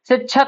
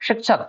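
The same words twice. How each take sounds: First: It starts with 's' and has a 'chh' sound. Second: It starts with 'sh' and has a 'ksh' sound. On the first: The speaker calls it wrong. "शिक्षक नहीं पढ़ा जाता" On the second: The speaker calls it right. "स सा नहीं है, शा है और उसके बाद ये छा नहीं है, क्ष"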